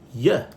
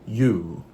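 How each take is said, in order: First: The word has a short, reduced vowel. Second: The word has a full, long vowel. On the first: "So it will be yeah instead of" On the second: "instead of you"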